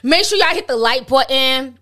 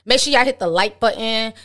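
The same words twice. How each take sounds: First: It is said in a New York accent. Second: It is said in the speaker's usual voice.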